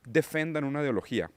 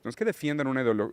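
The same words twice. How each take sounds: First: "defendan" with a plain e, no ie, Portuguese-style; "defendan" said the Portuguese way, before self-correcting; Portuguese slip. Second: Said in the usual way. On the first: Real, not acted. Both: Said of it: "perdón, me salió el portugués".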